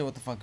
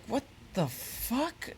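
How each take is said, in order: First: Said in the usual way. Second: High, slow, drawn-out disbelief; stretched, high-pitched retold bewilderment; totally confused. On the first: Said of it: "she didn't actually say". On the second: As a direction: imitate a baffled grandmother, softly and slowly. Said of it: "she was totally confused".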